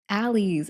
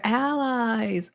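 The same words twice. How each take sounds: First: "alleys" ending in an "eez" sound; ALLEYS pronunciation. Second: "allies" stretched slowly, ending like "eyes"; drawn-out ALLIES. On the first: Retold or imitated. Quoting Bacon's version of allies, "alleys" ending "eez". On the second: Shown as a demonstration. Punning on alleyways during Pride, "allies" drawn out. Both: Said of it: "as Bacon would say".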